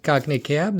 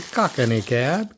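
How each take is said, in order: First: Said in the usual way. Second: "Cockney" said in three syllables, COCK-uh-nee. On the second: Real, not acted. Collector naming the next toy car, "Cockney" as COCK-uh-nee. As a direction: put an extra "uh" in the middle of "Cockney". Says the name two ways.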